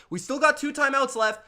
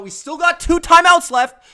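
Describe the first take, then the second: First: Said in the usual way. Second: Loud, higher shout of the play call; pumped-up shout to the huddle; sideline shout. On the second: Retold or imitated. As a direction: bark it like a coach on the sideline. Mock coach yelling on sideline.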